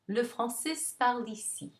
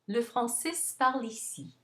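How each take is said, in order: No difference in how they are said.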